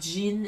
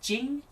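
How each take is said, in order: First: The name ends with a plain n sound. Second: The name ends with an ng sound. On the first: The speaker calls it wrong. "It's not Jin" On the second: The speaker calls it right. "It's Jing"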